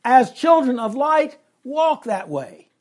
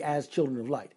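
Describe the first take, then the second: First: Put-on "As children of light" called out high and loud, then slow "walk that way"; emphatic front phrase. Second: Said in the usual way. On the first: Shown as a demonstration. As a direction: punch "As children of light" much higher and louder. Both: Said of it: "the thing that's emphasized there".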